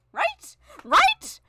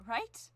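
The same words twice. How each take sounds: First: High loud right, rising; excited high squeal. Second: Said in the usual way. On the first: Real, not acted. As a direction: squeal it, demanding agreement. Emphatic repeated question.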